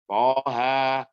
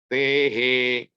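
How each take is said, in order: First: Both vowels are open, plain 'a' sounds. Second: Both vowels lean toward an 'e' sound. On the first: "bacaan hafaz" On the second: "bacaan Syu'bah, dibaca imalah"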